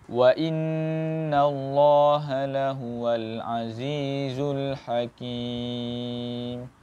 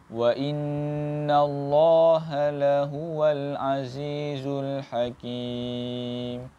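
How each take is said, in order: No difference in how they are said.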